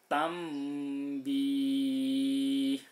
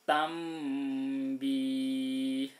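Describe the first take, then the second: The two takes are said the same way.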